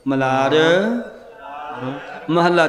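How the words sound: There is a short pause after the first word. The speaker calls it right. "Malhar 'ਤੇ ਥੋੜ੍ਹਾ ਰੁਕ ਕੇ"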